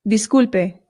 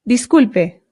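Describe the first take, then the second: The two takes are said the same way.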